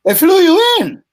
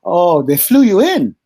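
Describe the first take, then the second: First: Much higher and louder, disbelieving; incredulous squeak of "They flew you in?"; astonished. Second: Surprised. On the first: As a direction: hit YOU up high in shock. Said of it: "I said, "Yeah". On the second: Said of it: "He said". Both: Retold or imitated.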